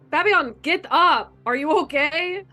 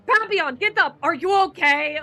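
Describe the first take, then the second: First: It is said in a plain, concerned tone. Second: It is said in an angry, annoyed tone.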